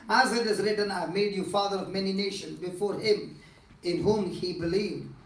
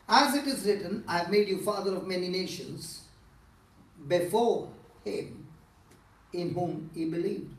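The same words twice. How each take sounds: First: It is read straight through without a pause. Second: It is read with a pause partway through. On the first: "this time I'm not going to do it" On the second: "now I'm going to take a pause"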